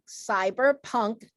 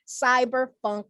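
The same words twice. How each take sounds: First: Said in the usual way. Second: Cyberpunk said as "cyberfunk"; funk variant. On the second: Real, not acted. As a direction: end cyberpunk on an F sound, "-funk". Genre list, funk then punk.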